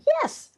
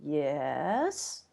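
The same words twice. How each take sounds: First: It is said with excited, eager agreement. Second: It is said doubtfully, with hesitant uncertainty. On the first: The speaker agrees enthusiastically. "means I'm excited, I agree" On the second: The speaker only half agrees. "which kind of means well, maybe"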